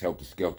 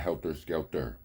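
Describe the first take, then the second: First: The words end with an open 'ah' sound. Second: The words end with an 'er' sound. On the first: The speaker calls it right. "It's A and a H at the end of those words" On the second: The speaker calls it wrong.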